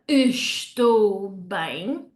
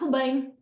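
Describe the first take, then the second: First: The opening syllable es is pronounced. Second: The opening syllable es is dropped. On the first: "in real life, you wouldn't hear estou bem" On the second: "The first es would just get dropped off and swallowed up"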